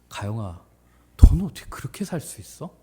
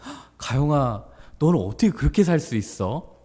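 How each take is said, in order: First: The question sounds scornful and contemptuous. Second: The question sounds admiring and genuinely curious. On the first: The asker disapproves of how the person lives. The speaker calls it wrong. "이거 아니야" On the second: The asker admires how the person lives. The speaker calls it right. "얘들 뉘앙스가 중요하다"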